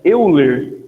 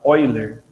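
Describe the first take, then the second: First: The name is read just as it is spelled. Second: The name is said differently from its spelling. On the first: The speaker calls it wrong. "A gente escreve Euler" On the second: The speaker calls it right. "mas a gente fala Euler"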